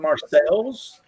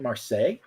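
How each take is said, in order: First: The name is read out as it is spelled. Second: The name is said the French way. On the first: The speaker only knew the name from print. The speaker calls it wrong. "I've only ever seen it written. I've never heard it s- spoken" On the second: The speaker knew how the name is spoken. The speaker calls it right. "She pronounced it the right way"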